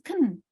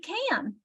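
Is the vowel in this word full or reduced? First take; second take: reduced; full. First: The word is said with a weak, reduced vowel. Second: The word is said with a full, clear vowel. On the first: "It becomes can" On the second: "I'm going to say can"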